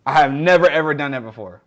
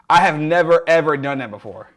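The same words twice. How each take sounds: The two takes are said the same way.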